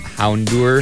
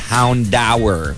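First: The ending does not sound like 'dower'. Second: The ending sounds like the word 'dower'. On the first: The speaker calls it wrong. "I used to call them Houndour" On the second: The speaker calls it right. "no, it's Houndour. Because of the root word dower"

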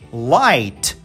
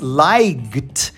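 First: No g sound is heard before the final t. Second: A g sound is heard before the final t. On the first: The speaker calls it right. "a gente suprime o G, no caso G e o H, e a gente apenas diz light" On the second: The speaker calls it wrong. "a gente não diz light"

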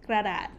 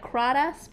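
First: The word ends with a t sound. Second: The word ends with an s sound. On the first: The speaker calls it right. "but it's Kradat" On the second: The speaker calls it wrong. "It is spelled like Kradas"

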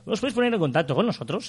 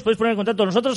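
First: The phrase is spoken slowly. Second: The phrase is spoken quickly. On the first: "hoy lo voy a hacer más lento" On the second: "lo digo muy rápido"

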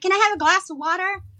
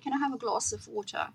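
First: It is said with an American accent. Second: It is said with a non-American accent. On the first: Listeners understood it. The speaker calls it right. "I just got to say" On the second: Listeners could not understand it. The speaker calls it wrong. "And they'd be like, what?"

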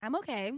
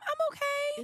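First: It is said in a lower pitch. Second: It is said in a high pitch.

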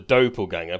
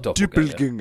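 First: The first vowel is a plain back o. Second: The first vowel is a rounded front ö. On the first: The speaker calls it right. "So either call it the doppelganger" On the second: The speaker calls it wrong. "it's not doppelganger. There are no umlauts on that O"

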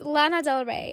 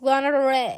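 First: The name is said carefully, with clear sounds. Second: The name is said loosely, with slurred sounds. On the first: The speaker calls it right. "I meant, right?" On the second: The speaker calls it wrong. "I don't know why I pronounce it like this"

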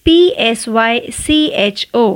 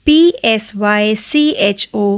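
No difference in how they are said.

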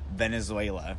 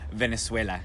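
First: It is pronounced with English sounds. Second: It is pronounced with Spanish sounds.

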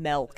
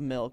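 First: The vowel is altered from the usual sound. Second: The vowel has its usual standard sound. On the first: The speaker calls it wrong. "It's like saying milk instead of milk" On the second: The speaker calls it right. "instead of milk"

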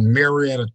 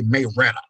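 First: The name is pronounced the general, non-local way. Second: The name is pronounced the local East Texas way. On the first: The speaker calls it wrong. "we don't say it like that" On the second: The speaker calls it right. "We say Marietta"

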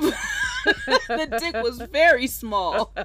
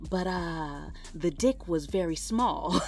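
First: The stress falls on the word very. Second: The stress falls on the word small.

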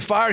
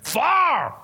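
First: It is said in a plain, neutral accent. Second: It is said in Pastor Masterson's southern drawl.

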